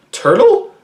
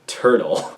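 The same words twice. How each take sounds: First: TURTLE as a question, pitched high and rising; high, rising, querying Turtle. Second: TURTLE low and falling, softer; low, settled, final Turtle; TURTLE as statement. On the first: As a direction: ask "Turtle?" with a sharp upward lift. Puzzled reading of a username. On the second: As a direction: answer "Turtle." with a downward close. Same username answered as a statement. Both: Shown as a demonstration.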